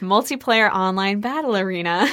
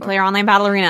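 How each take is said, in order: First: It is said at a slow pace. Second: It is said at a quick pace.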